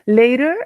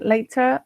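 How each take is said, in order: First: It is said with an American pronunciation. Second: It is said with a European pronunciation. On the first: "is the pronunciation in American" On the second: "is in Europe in general"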